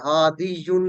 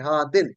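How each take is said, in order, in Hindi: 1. शब्द -iyun की आवाज़ पर खत्म होता है। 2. शब्द छोटी -in की आवाज़ पर खत्म होता है। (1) "हादियुन नहीं है" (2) "बल्कि हा दिन, कमजोर हर्फ नहीं पढ़ा जाता"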